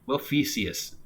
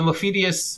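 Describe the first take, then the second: First: The name is said without a d sound. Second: The name is said with a d sound. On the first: "I don't think there's a D" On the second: "I think it's Mophidius"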